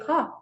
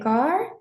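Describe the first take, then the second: First: It is said with a British accent. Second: It is said with an American accent.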